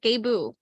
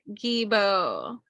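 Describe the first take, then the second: First: The first vowel sounds like 'ah'. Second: The first vowel sounds like 'ee'. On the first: The speaker calls it right. "That's how you say it" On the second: The speaker calls it wrong. "Even though I said it's Gibo because it's spelled G E B O"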